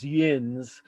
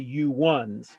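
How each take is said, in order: First: It is said as one short syllable. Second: It is said as two separate syllables. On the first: "which got shortened to" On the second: "if I were referring to the group, I would say you ones"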